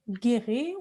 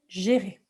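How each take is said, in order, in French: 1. Le mot commence par un g dur. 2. Le mot commence par un son zh doux. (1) "d'habitude, le G en français, on va dire gai" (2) "on va dire gérer"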